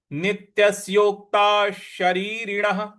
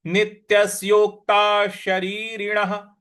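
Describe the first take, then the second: No difference in how they are said.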